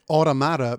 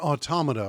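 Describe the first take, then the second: First: It is pronounced with a New Jersey-like sound. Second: It is pronounced like the word automaton. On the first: The speaker calls it wrong. "makes the person sound like they're from New Jersey" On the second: The speaker calls it right. "the title evokes the word automaton"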